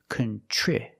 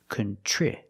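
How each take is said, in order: No difference in how they are said.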